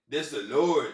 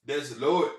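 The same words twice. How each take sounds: The two takes are said the same way.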